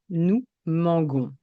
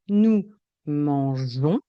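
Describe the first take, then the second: First: The g is said hard, like the g in 'go'. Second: The g is said soft, like the j in 'je'. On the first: The speaker calls it wrong. "Si je n'écris pas ce E, le son sera" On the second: The speaker calls it right. "J'ajoute le E pour obtenir le son J"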